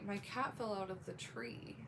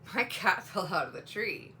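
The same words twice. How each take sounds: First: It is said in a worried, anxious tone. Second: It is said in an amused, lighthearted tone. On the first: The speaker is concerned about the event. "then you know that they're worried" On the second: The speaker finds the event funny. "they might think it's funny"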